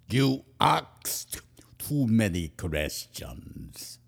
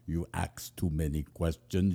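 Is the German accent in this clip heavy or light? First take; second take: heavy; light. First: It has a heavy, exaggerated German accent. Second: It has a light, subtle German accent. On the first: The speaker calls it wrong. "It probably wasn't as big as I just acted out" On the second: The speaker calls it right. "It was more like, ... that's closer"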